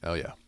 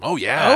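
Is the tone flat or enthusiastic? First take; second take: flat; enthusiastic. First: It is said flatly, without enthusiasm. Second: It is said with lively enthusiasm.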